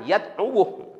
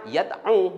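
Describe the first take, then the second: First: The word ends with an added 'wu' syllable. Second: The word ends after the syllable 'du'. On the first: The speaker calls it wrong. "bukan yad'uwuh" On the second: The speaker calls it right. "Bacanya yad'u"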